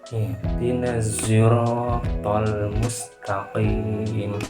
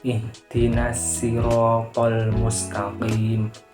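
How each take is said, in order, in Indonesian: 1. Sirat dimulai dengan s yang bercampur dengan z. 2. Sirat dimulai dengan bunyi s biasa yang tipis. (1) "mencampurkan huruf short dengan zai seperti seperti ini" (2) "kata asyiro diganti huruf sin"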